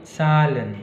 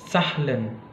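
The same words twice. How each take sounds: First: The h sound is faint and soft. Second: The h sound is strongly pronounced. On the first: The speaker calls it right. "lebih ke fade, uh, halus" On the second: The speaker calls it wrong. "tidak terlalu Zahlen"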